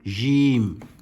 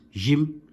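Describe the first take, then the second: First: The word is said long and drawn out. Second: The word is said short, not drawn out. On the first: "it can be stretched" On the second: "not just Jim"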